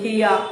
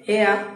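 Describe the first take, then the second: First: The first vowel sounds like 'ee'. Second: The first vowel sounds like 'eh'. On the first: This is another way to pronounce the name. "যদি আমরা অন্যভাবে একটু pronounce করি" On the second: This is how the name may be said in Bengali. "হেয়াও হতে পারে বাংলাতে"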